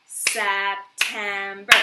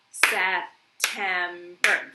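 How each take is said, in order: First: September clapped out slowly, Sep-tem-ber, each part loud; syllable by syllable. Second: September stretched slowly into three beats; sounded out. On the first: Teacher clapping out syllables for the class, slow and loud. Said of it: "let's count it up". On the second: Teacher sounding out the word for kids, slow. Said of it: "when we go to sound something out". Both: Shown as a demonstration.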